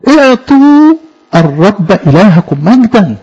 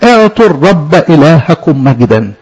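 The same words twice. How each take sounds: First: Slow, measured verse reading; solemn slow recital, a little higher; scripture recitation. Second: Slow, measured verse reading; solemn slow scripture recital; scripture recitation. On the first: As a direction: intone it slowly with weight on اعطوا. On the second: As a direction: intone the verse slowly like a reading. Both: Acted.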